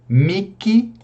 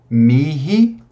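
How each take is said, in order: First: The middle consonant is a hard k sound. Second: The middle consonant is a breathy h sound. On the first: "eu posso pronunciar com o som do K" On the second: "eu posso pronunciar com H aspirado"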